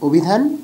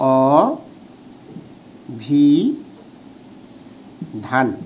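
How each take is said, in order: First: The first vowel is a rounded 'o' sound. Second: The first vowel is an open 'aw' sound. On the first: This is how the word is actually read aloud. "কিন্তু আমরা এটা কিন্তু অভিধান পড়ি" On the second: This is how the word is written. "কি লিখি?"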